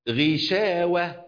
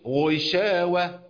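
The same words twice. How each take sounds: First: The first consonant is thinned and weak. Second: The first consonant is fully heavy and strong. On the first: The speaker calls it right. "لأنها مكسورة، الكسر هنا خلاها حرف ضعيف" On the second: The speaker calls it wrong. "ما قلتش غشاوة"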